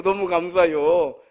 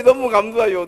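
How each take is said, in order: First: Slower heartfelt thanks. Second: Said in the usual way. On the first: Acted. Second, echoed thank-you.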